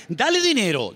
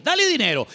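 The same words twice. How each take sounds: First: Said in the usual way. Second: "dale dinero" again, pitched higher with weight on "dale"; emphatic repeat. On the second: Acted. Preacher drives home "dale dinero" to the congregation, raised and emphatic. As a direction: push "dale dinero" up high the second time. Repeated phrase, second take.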